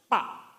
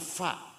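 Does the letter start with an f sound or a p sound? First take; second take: p sound; f sound. First: The letter starts with a p sound. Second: The letter starts with an f sound. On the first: The speaker calls it wrong. "fa itu nggak bisa, pa" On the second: The speaker calls it right. "Orang Sunda tidak bisa fa"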